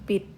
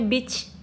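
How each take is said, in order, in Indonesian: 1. Kata ini berakhir dengan bunyi 't'. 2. Kata ini berakhir dengan bunyi 'ch'. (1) "dia dibacanya menjadi bit" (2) "Harusnya kan dibacanya beach"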